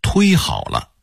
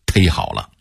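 First: 忒好了 with 忒 said as "tuī"; standardised pronunciation. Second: 忒好了 with 忒 said as "tēi", no rounded glide; Beijing local pronunciation. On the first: Teacher giving the regularised reading, 忒好了 with 忒 as "tuī". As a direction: say 忒好了 slowly, 忒 rounded into "tuī". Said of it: "发音规划为忒好了". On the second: Teacher showing what Beijingers still say, 忒好了 with local "tēi". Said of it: "北京人往往还说土音儿忒好了". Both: Shown as a demonstration.

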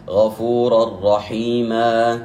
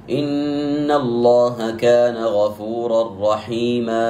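First: رحيما with the final a held just two beats; correct recitation. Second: Overstretch the end of غفورا رحيما; wrong reading. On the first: Teacher giving the right length, slow chanted recitation. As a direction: chant غفورا رحيما with a two-beat ending. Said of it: "يمد بقدر حركتين". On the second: Teacher showing the mistake, slow overlong chant. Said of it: "خطأ". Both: Shown as a demonstration.

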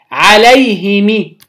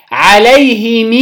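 First: عليهم said "alayhimi", ending in short i; slow عليهم with i after both h and m; kasra on mim. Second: عليهم said "alayhimii", final i drawn long; slow عليهم, stretch the closing ee; kasra with sila. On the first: Teacher showing students the second form, عليهم as "alayhimi". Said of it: "بكسر الميم وكسر الهاء". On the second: Teacher showing students the linked form, عليهم as "alayhimii". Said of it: "مع صلة الميم". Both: Shown as a demonstration.

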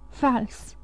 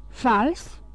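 First: "Fals." soft with a falling tune; flat repeat. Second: A stunned, hushed rising "Fals?"; whispered question. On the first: Caderus to himself, soft falling statement. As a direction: let "Fals." settle down as a statement. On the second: Caderus to his wife, whispered rising disbelief. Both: A narrator's reading. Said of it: "șopti el".

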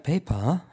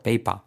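First: "paper" R-less with a rising lilt; "paper" as a lilting British "pei-pa"; British intonation. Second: "Paper" as an uninflected "pei-pa", falling; "Paper" in a Spaniard's plain tune; without the intonation. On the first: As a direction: lift the open "pa" ending of "paper". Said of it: "que ver con la entonación". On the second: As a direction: drop the R and the British lilt on "Paper". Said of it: "si no hacemos esa entonación". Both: Shown as a demonstration.

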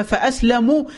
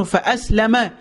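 First: فأسلموا said with the mim rounded, fa-aslamu; damma reading. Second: فأسلم said with the mim open, fa-aslama; fatha reading. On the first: Preacher explains the other reading, فأسلموا with mim rounded. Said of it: "بضم الميم". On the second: Preacher explains one reading, فأسلم with mim open. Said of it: "بفتح الميم". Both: Shown as a demonstration.

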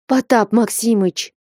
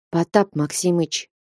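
First: Short protesting cry, a little raised; exclaiming. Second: Dejected voice. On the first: Alexey protests to the master with a mild exclamation. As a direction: burst out the name in protest. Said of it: "вскликнул было Алексей". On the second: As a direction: begin the name with a fallen heart. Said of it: "упалым голосом начал было Алексей". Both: A narrator's reading.

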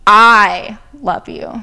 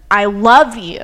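First: I punched loud, slow delivery; I love you, slow and loud with I on top; stress on I. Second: Love punched loud and falling; I love you with the weight on love; stress on love. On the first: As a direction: hit the word I hard. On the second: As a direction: hit the word love. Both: Shown as a demonstration. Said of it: "which word you put the inflection on".

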